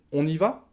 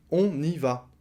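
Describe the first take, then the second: First: "On y va?" with "va" shooting up; rising question tune. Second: "On y va." as a statement, no question lift; affirmative tune. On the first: Teacher adding the question mark by voice, rising. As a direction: raise the tone on "On y va?" to ask. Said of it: "je monte le ton". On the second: Teacher showing the affirmative sentence, as a statement. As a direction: state "On y va." without rising on "va". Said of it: "c'est une phrase affirmative". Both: Shown as a demonstration.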